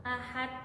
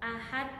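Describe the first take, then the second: The two takes are said the same way.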